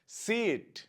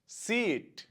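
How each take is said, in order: The two takes are said the same way.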